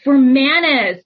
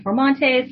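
First: Formanes said as "for-MAH-nes" without the "t"; Formanes, careful "mah-nes" ending; corrected name. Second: Formontes said with an "on" in the middle; Formontes, stressed "MON", the wrong way; mispronounced name. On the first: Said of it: "My last name is Formanes". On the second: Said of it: "Oh, quick correction". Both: Real, not acted.

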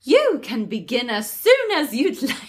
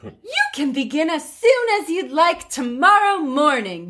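First: Lightly regal queen. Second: Light, sweet fairy godmother; lightly voiced fairy godmother. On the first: Acted. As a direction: try for a queen's voice. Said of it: "I don't know how to do a regal voice". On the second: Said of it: "That was more fairy godmother than queen".

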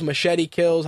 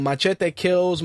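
First: Machete said English-style as muh-SHET-ee; English pronunciation. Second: Machete said Spanish-style as mah-CHEH-tay; Spanish-style pronunciation. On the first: Host offering the film title by accent, Machete as muh-SHET-ee. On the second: Host offering the film title by accent, Machete as mah-CHEH-tay. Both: Shown as a demonstration. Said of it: "depending on your accent".

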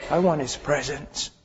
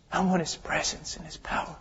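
First: Said in the usual way. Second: Soft, unvoiced plea; whispered longing. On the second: Preacher whispers his longing for God's presence. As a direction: breathe it like a prayer.

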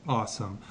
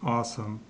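Both takes have the same delivery.

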